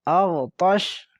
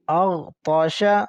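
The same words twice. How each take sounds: First: The last consonant ends without a vowel. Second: The last consonant carries a short vowel.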